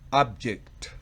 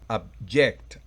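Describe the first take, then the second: First: The stress is on the first syllable. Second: The stress is on the second syllable. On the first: It is a noun meaning a thing. "el sustantivo lleva el acento en la primera" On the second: It is a verb meaning to oppose. "el verbo lo lleva en la segunda"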